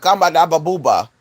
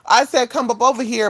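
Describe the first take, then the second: First: "Kamba da ba booba" run together as garbled syllables; garbled speech. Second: "come up over here" said as separate real words, higher; intended words. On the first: Shown as a demonstration. Demonstrating own jumbled fast speech, garbled "Kamba da ba booba". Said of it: "not slurring my words, but I would be saying shit". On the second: Acted. Correcting people who misheard, clearly worded "come up over here". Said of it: "that's what it sound like I said".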